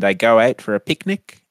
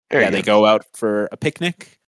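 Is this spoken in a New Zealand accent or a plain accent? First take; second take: New Zealand; plain. First: It is spoken in a put-on New Zealand accent. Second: It is spoken in the speaker's own plain accent. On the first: "I'm going to do my New Zealand accent" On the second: "so I'm going to stop doing it"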